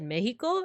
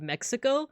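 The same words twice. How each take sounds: First: It is said with a Spanish pronunciation. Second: It is said with an English pronunciation. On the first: "I do feel self conscious when I try to do an accent" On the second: "instead of Mexico"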